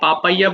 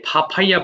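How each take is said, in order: First: The p sounds are plain, without a puff of air. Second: The p sounds come with a strong puff of air. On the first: The speaker calls it wrong. "আমরা পাপাইয়া বলি" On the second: The speaker calls it right. "এটাকে ফাফাইয়া বলবা"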